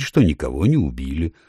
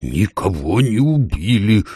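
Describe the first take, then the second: First: Said in the usual way. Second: Slow, drawn-out exasperated call; exasperated owl. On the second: A narrator's reading. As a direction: lose patience, stretching every word. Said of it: "вышла из себя сова". (сова выходит из себя)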